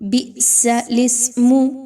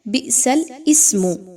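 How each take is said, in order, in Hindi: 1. lam सीधे ismu से जुड़ता है, इसलिए इसे मिलाकर बोला जाता है। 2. ismu से पहले वाला alif अलग से बोला जाता है। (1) "लाम के नीचे जो ज़ेर है उसको डायरेक्ट सीन के साथ मिलाया जाता है" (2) "आमतौर पर लोग इसको कैसे पढ़ रहे होते हैं, ऐसा नहीं पढ़ना"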